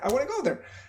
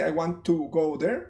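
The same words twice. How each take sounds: First: The words are reduced and run together. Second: Every word is said fully and separately. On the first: The speaker calls it right. "I say" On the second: The speaker calls it wrong. "I don't say"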